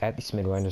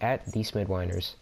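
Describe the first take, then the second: First: It is said at normal speed. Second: It is said slowly.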